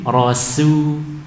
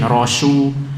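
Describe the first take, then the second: First: The s is said as a plain light s. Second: The s is said as an sh sound. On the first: The speaker calls it right. "baca dengan sin" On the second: The speaker calls it wrong. "dengan shin"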